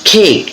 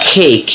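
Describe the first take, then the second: The two takes are said the same way.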